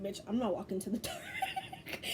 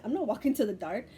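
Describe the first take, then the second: First: High, laughing mock refusal. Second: Said in the usual way. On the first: Refusing the dark door, laughing.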